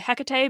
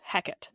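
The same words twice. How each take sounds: First: The name has its Greek pronunciation. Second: The name has its Elizabethan English pronunciation. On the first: It refers to the goddess herself. "that is the Greek pronunciation of this goddess" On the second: It refers to the Shakespeare character. "this is how the English pronounce this name um, during Shakespeare's time"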